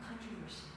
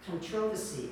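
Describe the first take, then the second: First: Said in the usual way. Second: Imitating Australian "controversy" with stress on the second syllable, conTROversy; Australian accent. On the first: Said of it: "I'm like, "Oh". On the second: Teacher telling class how Australians said it, Australian accent. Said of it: "when I first heard them saying".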